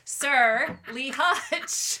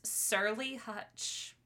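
First: Sir and Lee are said as separate words. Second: Sir and Lee run together as one word. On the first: It is a title followed by a name. The speaker calls it right. "Not Surly Hutch" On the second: It calls him grumpy. The speaker calls it wrong. "It sounded like he was surly"

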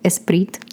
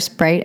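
First: The word begins with an added e vowel sound. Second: The word begins directly with the s sound. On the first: "if you start with an S, always put an E in front" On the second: "if I want to order a Sprite"

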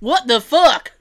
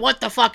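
First: It is said in a heavy Southern US accent. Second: It is said in a growling pirate accent. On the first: "I even gave you a southern accent for that" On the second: "Not as good as my pirate"

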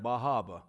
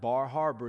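First: It is said in the local accent, r dropped. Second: It is said with her own accent, r pronounced.

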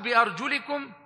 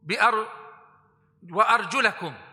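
First: The vowel after the 'l' is 'i'. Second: The vowel after the 'l' is 'a'. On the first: The feet are to be wiped over. "if you read it with a kasara, it means to make masa" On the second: The feet are to be washed. "If you read it with a fatha, it means to wash it"

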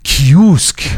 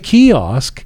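First: The name is said with a Persian pronunciation. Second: The name is said with an English pronunciation. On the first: The speaker sounds like he is showing off. "Now you have the accent" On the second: The speaker seems not to know the name. "he doesn't know how to say the name"

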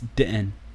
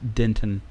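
First: The first syllable sounds like "da". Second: The first syllable sounds like "den". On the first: The speaker calls it right. "I'm going to pronounce it correctly here... It's the Troy boy pronunciation of Denton. So it's Denton" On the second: The speaker calls it wrong. "not Denton"

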